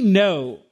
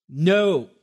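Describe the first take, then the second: First: A loud, passionate No; a fiery, punched No; emphatic Spanish no. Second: A restrained firm no; an emphatic no kept in check; held-back no. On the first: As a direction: hit it with full Spanish passion. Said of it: "Us Spanish folks are known for our passion". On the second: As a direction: say no, but hold the passion back. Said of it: "Did you catch that? I held that back a bit". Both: Shown as a demonstration.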